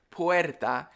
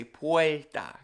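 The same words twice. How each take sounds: First: Said in the usual way. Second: "puerta" said "puelta". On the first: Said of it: "instead of the word". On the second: Shown as a demonstration. Teacher showing the Caribbean sound, L for R. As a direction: put an L in "puerta" where R stands. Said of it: "'cause we add the L".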